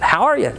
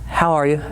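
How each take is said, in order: First: It sounds warm, upbeat and interested. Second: It sounds flat, dull and uninterested. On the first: The caller genuinely cares about the customer. The speaker calls it right. "Just like that" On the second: It is just an empty nicety. The speaker calls it wrong. "does that have any care in it? No"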